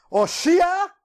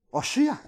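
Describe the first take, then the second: First: "Oshia" sung out high with a rising end; Hebrew cry. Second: Said in the usual way. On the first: Shown as a demonstration. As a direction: lift "Oshia" up as a chanted plea. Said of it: "lo que decían realmente en hebreo". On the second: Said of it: "¿Cómo se dice el nombre de Oseas en hebreo?".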